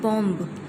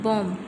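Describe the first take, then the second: First: The final b is pronounced at the end. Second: The final b is silent at the end. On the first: The speaker calls it wrong. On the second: The speaker calls it right.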